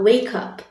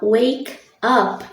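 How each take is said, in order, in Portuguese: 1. As duas palavras são ditas juntas. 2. As duas palavras são ditas separadamente. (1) "eu junto também essas duas palavras" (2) "ao invés de falar wake up"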